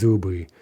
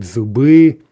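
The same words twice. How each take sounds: First: "zubi" with stress on ZU; actual first-syllable stress. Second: "zubi" with stress on a loud final BI; expected end stress. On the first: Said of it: "Okay, so it's zubi". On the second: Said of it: "you may expect zubi". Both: Shown as a demonstration.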